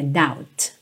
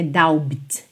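First: "doubt" said as dowt, B silent; teacher shows the right way: "doubt" with silent B. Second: "doubt" said with the B sounded, as dowbt; teacher shows the wrong way: "doubt" with a voiced B. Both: Shown as a demonstration. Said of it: "a letra B não soa".

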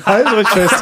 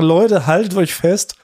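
First: Clickbait video narrator. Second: Slow, drawn-out hype announcement; clickbait video narrator. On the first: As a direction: pump up the crowd, laughing. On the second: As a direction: stretch it out like a teaser. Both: Pretend. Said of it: "Dann können wir sagen".

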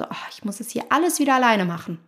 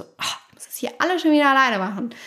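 First: Said in the usual way. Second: Higher, quicker reproachful complaint, stressing schon. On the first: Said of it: "Ist auch wieder diese Betonung". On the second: Shown as a demonstration. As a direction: nag like a partner: alles schon wieder alleine. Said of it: "Da ist auch ein schöner Vorwurf". (vorwurfsvoll, schneller, Betonung auf „schon“)

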